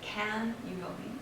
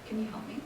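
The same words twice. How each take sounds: First: The word can is full and strong. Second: The word can is small and reduced. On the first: The speaker calls it wrong. "Instead of" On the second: The speaker calls it right. "one is small"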